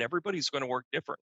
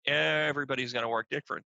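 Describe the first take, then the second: First: "Everybody's gonna work different" rattled off quickly; fast, casual "Everybody's gonna work different"; quick statement. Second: Measured restatement with weight on "Everybody's"; emphatic repeat. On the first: First take, said in passing. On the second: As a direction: restate it deliberately, leaning on "Everybody's". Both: Real, not acted.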